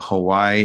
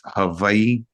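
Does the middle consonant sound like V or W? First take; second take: W; V. First: The middle consonant is a soft W sound. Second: The middle consonant is a sharper V sound. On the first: "instead of it being Hawaii" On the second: "With a V sound"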